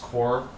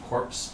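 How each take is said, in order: First: The word ends in an r sound. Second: The word ends in a ps sound. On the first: The speaker calls it right. "it's definitely pronounced core" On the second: The speaker calls it wrong. "it's supposed to be corpse"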